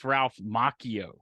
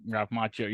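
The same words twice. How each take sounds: First: Macchio said MAH-kee-oh, drawn out slowly; slow, corrected "Macchio" with a K sound; corrected name pronunciation. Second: Put-on "Macchio" said as the Karate Kid actor's name; "Macchio" as in the actor, not the corrected MAH-kee-oh; actor's name pronunciation. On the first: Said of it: "we were mispronouncing his name last time". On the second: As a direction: say "Macchio" the familiar film-star way. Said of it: "He doesn't pronounce it like". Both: Shown as a demonstration.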